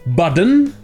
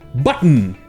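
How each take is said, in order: First: The middle consonant is a soft d sound. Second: The middle consonant is a glottal stop. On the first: "ou comme on a vu hier" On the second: "en fait, ça se prononce en général button ... C'est ça le glottal stop"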